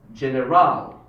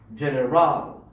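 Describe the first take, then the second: First: The stress is on the third syllable. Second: The stress is on the third syllable.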